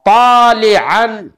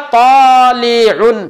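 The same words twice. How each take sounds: First: Very slow "तालिअन", ending in -an; "तालिअन" stretched, with an a in the last syllable. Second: Slowly drawn-out "तालिउन", ending in -un; "तालिउन" said slowly with a u in the last syllable. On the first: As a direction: draw out "तालिअन" and close on an open "an". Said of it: "मैंने कहा". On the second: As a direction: stretch "तालिउन" and close on an "un" sound. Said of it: "मैंने कहा तालिउन". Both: Shown as a demonstration.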